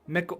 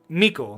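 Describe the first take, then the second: First: The first syllable rhymes with 'pick'. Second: The first syllable sounds like 'me'. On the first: The speaker calls it right. "Like, pickle, Mickle" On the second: The speaker calls it wrong. "Why am I saying me again?"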